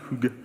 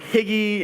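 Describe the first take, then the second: First: It is said with the Danish pronunciation. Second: It is said like an English word, 'higgy'. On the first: The speaker calls it right. "no, no, it's Hygge" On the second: The speaker calls it wrong. "that's what I wish the word was"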